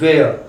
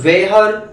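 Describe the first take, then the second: First: The h sound is silent. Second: The h sound is pronounced after the w. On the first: The speaker calls it right. "It is sounded वेयर" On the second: The speaker calls it wrong. "इसको अपन वेहर वेयर etcetera नहीं पढ़ते हैं"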